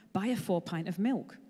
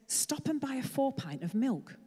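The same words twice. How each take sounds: First: Said in the usual way. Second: Slow, distant inner voice; inner divine voice. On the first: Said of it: "the thought kept coming". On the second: Acted. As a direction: say it slowly like a voice in his head. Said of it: "He said".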